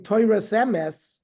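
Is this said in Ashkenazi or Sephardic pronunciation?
Ashkenazi. It ends with an s sound, Ashkenazi style.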